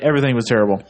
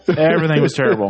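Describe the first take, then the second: First: Said in the usual way. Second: "Everything" lifted higher on the repeat; emphatic repeat. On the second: Real, not acted. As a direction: repeat it with more punch on "Everything".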